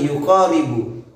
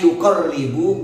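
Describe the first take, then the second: First: The vowel after the q is long. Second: The vowel after the q is short. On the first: The speaker calls it wrong. "tidak ada alif setelah qafnya" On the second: The speaker calls it right. "Itu redaksinya yuqarribu"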